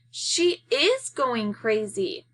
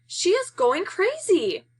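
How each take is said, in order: First: Dismay. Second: Much higher, louder, slow panicked cry; alarmed cry. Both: Acted. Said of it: "Kermit says in dismay".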